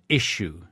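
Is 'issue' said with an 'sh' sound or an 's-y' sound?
sh. The middle sounds like 'sh', like a sneeze. This is the pronunciation punished at school. "we used to get smacked at school if we said issue. You are not sneezing"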